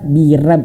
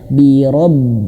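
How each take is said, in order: First: The r is said thin with a bright a. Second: The r is said thick with a dark o. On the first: The speaker calls it wrong. "Jangan bira, rab, birab ... Keliru sekali" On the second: The speaker calls it right. "Huruf dibaca tebal ... Ro gitu ya"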